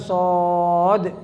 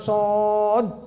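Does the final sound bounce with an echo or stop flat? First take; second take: echo; flat. First: The final consonant ends with a bouncing echo. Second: The final consonant ends flat with no echo. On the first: The speaker calls it right. "di ujungnya ada qalqalah" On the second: The speaker calls it wrong. "Itu salah"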